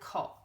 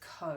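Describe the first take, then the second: First: The vowel is said with its short sound. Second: The vowel is said with its long sound. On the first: The speaker calls it wrong. "It doesn't say co" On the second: The speaker calls it right. "It says co"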